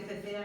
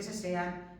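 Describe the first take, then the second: First: Cecean pronounced with th for each c; th sound in cecean. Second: Sesean pronounced with s, no th; s sound in sesean. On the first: Teacher naming zones of ceceo, th in cecean. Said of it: "al sonido de Z". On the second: Teacher naming zones of seseo, s in sesean. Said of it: "hay zonas que sesean". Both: Shown as a demonstration.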